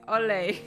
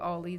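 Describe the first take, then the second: First: The name is said in an exaggerated English accent. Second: The name is said in a plain, ordinary accent. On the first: "with like a fake English accent. Like it's my exaggerated" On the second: "I'll just call you Ollie then"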